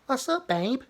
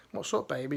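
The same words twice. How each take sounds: First: High, sugary imitation of a sympathetic reply; mock reply. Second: Said in the usual way. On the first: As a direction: coo it mockingly like a fawning partner. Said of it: "What's up, babe?" is your, you've got an issue". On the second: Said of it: "is your, you've got an issue there".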